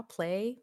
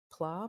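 First: "Play" with an ay vowel; soft, tentative "Play", ending on ay; alternative pronunciation. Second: "Pla" with an open ah vowel; soft, tentative "Pla", ending on ah; uncertain pronunciation. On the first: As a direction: offer "Play" as rhyming with "day". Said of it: "Pick whichever one I said right". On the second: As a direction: try "Pla" as rhyming with "spa". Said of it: "I don't know how to pronounce that". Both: Shown as a demonstration.

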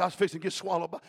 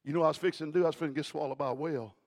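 First: Said in the usual way. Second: Fast first take. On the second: Shown as a demonstration. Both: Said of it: "You didn't hear what I just said".

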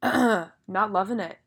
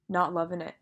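First: "not loving it" langzaam en nadrukkelijk, klem op "not"; slow, drawn-out. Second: Said in the usual way. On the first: Shown as a demonstration. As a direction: stress on not.

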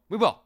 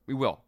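First: We will repeated louder and firmer, landing hard on will; emphatic repeat. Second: Said in the usual way. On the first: Real, not acted. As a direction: press the promise home on will.

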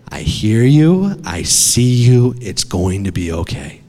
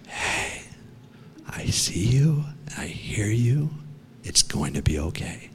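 First: Father's firm reassurance. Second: Soft, breath-only whisper; father's hushed reassurance. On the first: Father calming his trapped son in the cave, steady reassurance. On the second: Father finding his trapped son in the cave, whispered reassurance. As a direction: whisper gently, as if reaching someone far down a tunnel. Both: Retold or imitated. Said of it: "it's the voice of my father".

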